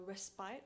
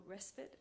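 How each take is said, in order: First: "Respite" ending like "spite"; "Respite" rhyming its last syllable with "bite"; long-i pronunciation. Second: "Respite" ending like "spit"; "Respite" with its last syllable rhyming with "bit"; short-i pronunciation. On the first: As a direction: say "Respite" with a long i, RES-pite. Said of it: "or Respite, as some people pronounce it". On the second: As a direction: say "Respite" with a short i, RES-pit. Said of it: "as some people pronounce it". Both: Shown as a demonstration.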